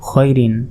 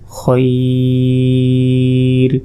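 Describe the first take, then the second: First: The word ends with a final vowel ending. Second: The word ends without the final vowel ending.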